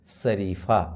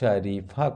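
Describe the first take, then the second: First: The word begins with an s sound. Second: The word begins with an sh sound. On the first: The speaker calls it wrong. "दंत स के उच्चारण से ही बोल देते हैं" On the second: The speaker calls it right. "तालव्य श के उच्चारण तालु से किया जाता है"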